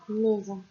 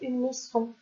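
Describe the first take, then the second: First: The middle consonant is a buzzing Z sound. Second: The middle consonant is a hissing S sound. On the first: The speaker calls it right. "il y aura un seul S pour faire le mot maison" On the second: The speaker calls it wrong. "Si on fait double S, ça fait une maison. Et ça n'est pas du tout correct"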